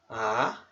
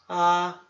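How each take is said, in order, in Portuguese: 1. O tom sobe durante toda a sílaba. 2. O tom se mantém nivelado durante toda a sílaba. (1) "Segundo tom ... É um tom que sobe" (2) "primeiro tom ... é um tom contínuo"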